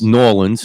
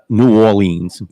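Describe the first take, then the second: First: The name is squeezed into two syllables, Nawlins. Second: The name is said in full as New Orleans. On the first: The speaker calls it right. "It's N A W L I N S" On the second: The speaker calls it wrong. "it's not New Orleans"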